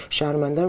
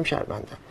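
First: Said in the usual way. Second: شرمندم faded to a breathless whisper; whispered mock apology. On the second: Mocking the uncle's endless apologies, whispered. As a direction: let شرمندم die away to a whisper. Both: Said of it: "هر روز هی میاد میگه".

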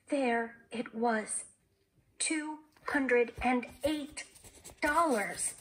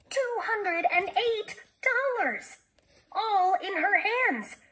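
First: Very slow, measured amazement; slow awe. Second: High, slow, ringing amazement; amazed exclamation. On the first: Jessie stunned by the money in her hands, slow awe. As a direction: spell out the sum slowly, pausing before the last word. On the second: Jessie marvelling at the sum in her hands, exclaiming. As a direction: exclaim it high, stretching each word in wonder. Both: A narrator's reading.

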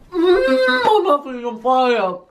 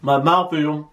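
First: Slow, high, crying-out pain; wailing through the burning chili; mouth on fire. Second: Said in the usual way. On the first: Real, not acted.

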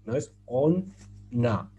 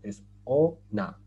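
First: "on na" split into two words with a break; "on na" spoken as two separate words; wrong split pronunciation. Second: "ona" as one word, slow and firm; "ona" run together, stress on the end; correct joined pronunciation. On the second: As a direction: join it into a single word "ona". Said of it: "no. Es ona". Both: Shown as a demonstration.

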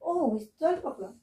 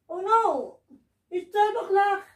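First: Said in the usual way. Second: Panicked, higher and urgent; alarmed. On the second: Pretend. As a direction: cry out in a sudden panic. Midnight strikes at the ball.

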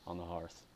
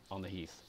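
First: "hearth" read as "harth" before self-correction; misread hearth. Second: "heath" said "heeth", quietly fixing the slip; corrected heath. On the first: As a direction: say "hearth" like the fireside word, then fix it. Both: Shown as a demonstration. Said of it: "mm, on the heath".

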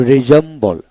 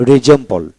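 The two takes are said the same way.

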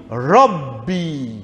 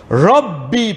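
First: Rabbi with the b not doubled, said short and falling; the wrong way: Rabbi with a light single b; wrong pronunciation. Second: Rabbi with a doubled b, ending on a rise; the right way: lean on the double b in Rabbi; correct pronunciation. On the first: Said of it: "Pas Rabbi". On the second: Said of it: "parce qu'il y a des B là". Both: Shown as a demonstration.

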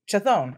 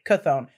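First: Chthon said as "chuh-THOHN"; ch pronunciation. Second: Chthon said as "kuh-THOHN"; k pronunciation. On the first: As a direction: open Chthon with a "ch" sound, long o. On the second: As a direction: open Chthon with a hard k, long o. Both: Shown as a demonstration. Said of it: "however you guys like to pronounce it".

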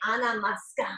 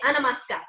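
First: Ana mosca with una turned to ana; vowel swapped to A. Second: Ana masca with every vowel as a; all vowels swapped to A. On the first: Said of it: "We say". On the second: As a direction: say Ana masca with only a sounds. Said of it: "Everybody say". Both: Shown as a demonstration.

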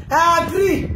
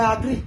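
First: 1 emphatic shout. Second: Said in the usual way. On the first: Real, not acted. Repeated, second shouted.

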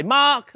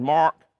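First: Australian accent. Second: American accent. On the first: Pastor asks the room to say it like an Australian, with an Australian accent. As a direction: say Mark with an Australian vowel, loud. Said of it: "like an Australian". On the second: Pastor asks the room to say it like an American, with an American accent. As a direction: Mark with a hard American r, low. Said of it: "Say it like an American". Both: Shown as a demonstration.

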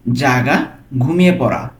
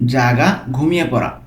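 Both takes have the same delivery.

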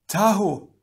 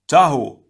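First: High, strained cry; high-pitched distressed call; gasped. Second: Loud, high warning shout; urgent shouted name. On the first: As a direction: gasp the name in alarm. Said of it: "Gali gasped". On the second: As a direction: yell the name across a battle. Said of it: "Pohatu shouted". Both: A narrator's reading.

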